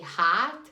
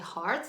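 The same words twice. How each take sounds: First: It is said with an Australian accent. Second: It is said with an American accent. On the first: "in Australia, they say heart" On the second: "people don't say heart"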